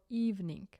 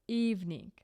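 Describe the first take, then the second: No difference in how they are said.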